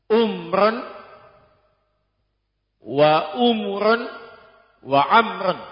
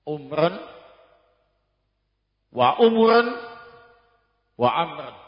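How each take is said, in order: The two takes are said the same way.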